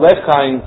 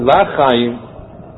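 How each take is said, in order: First: The first vowel is a short e sound. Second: The first vowel is an a sound. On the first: It asks to be remembered for life. The speaker calls it right. "so with a Shvot rather than a Pata" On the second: It is the plain phrase 'to life'. The speaker calls it wrong. "rather than you were pronouncing Lachaim"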